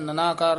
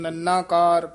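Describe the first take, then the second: First: The n sound is short and loose. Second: The n sound is pressed firmly and held. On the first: The speaker calls it wrong. "नहीं कहना" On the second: The speaker calls it right. "कस के ही बोलना है"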